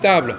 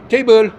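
First: The word has a French pronunciation. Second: The word has an English pronunciation. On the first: This is how the word sounds in French. "le français, ils savent que le mot table se prononce table" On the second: This is how the word sounds in the speakers' own language. "quand eux, ils parlent, ils emploient table"

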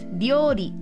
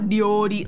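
First: The word is said with a higher pitch. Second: The word is said with a low pitch. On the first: The speaker calls it right. "It's ryori" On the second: The speaker calls it wrong. "It's not ryori like I was doing. That's like too low"

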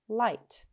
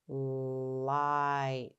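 First: The word is said quickly, as one short unit. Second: The word is said slowly, sounds stretched out. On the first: "Say it fast" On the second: "let's sound them out together"

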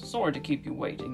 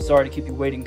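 First: It is spoken in a British accent. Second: It is spoken in an American accent. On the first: The speaker calls it wrong. "Except he wouldn't have a British accent" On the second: The speaker calls it right. "Is that better?"

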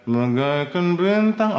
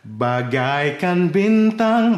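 First: The words are articulated loosely and unclearly. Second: The words are articulated crisply and clearly. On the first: The speaker calls it wrong. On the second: The speaker calls it right.

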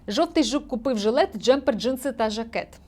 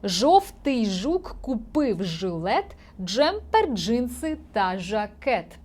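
First: It is read quickly. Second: It is read slowly and carefully. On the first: "Третій раз читаємо швидко" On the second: "Тепер я прочитаю без олівця повільно"

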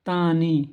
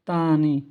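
The two takes are said the same way.

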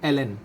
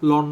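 First: It is spelled out as two letters. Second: It is said as one syllable. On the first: The speaker calls it right. "আসলে এটার উচ্চারণটা হচ্ছে এলএন" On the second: The speaker calls it wrong. "লন নয়"

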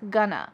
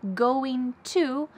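First: It is said reduced and linked as 'gonna'. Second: It is said in full as two separate words. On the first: "which often becomes gonna" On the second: "I'm pushing together or linking together going to"

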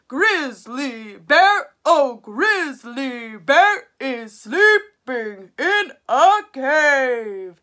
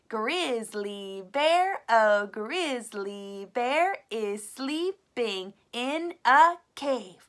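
First: It is said in a big, loud voice. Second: It is spoken in an ordinary talking voice. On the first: "Maybe you could use a big voice" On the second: "speak the whole thing with your talking voice"

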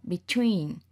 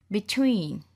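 No difference in how they are said.

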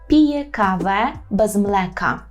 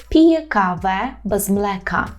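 No difference in how they are said.

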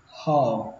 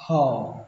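Both takes have the same delivery.

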